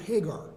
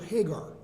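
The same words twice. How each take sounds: First: The name is said in an English way. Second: The name is said in an English way.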